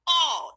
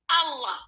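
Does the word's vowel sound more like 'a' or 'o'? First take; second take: o; a. First: The vowel sounds rounded, like an o. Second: The vowel sounds open, like an a. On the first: The speaker calls it wrong. "bukan O" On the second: The speaker calls it right. "tapi Allah"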